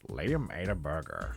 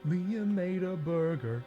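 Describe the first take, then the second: First: It is said in a deep, calm narrator voice. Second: It is said in a bright, cheerful voice. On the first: "Morgan Freeman narrate" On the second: "Blue's Clues style"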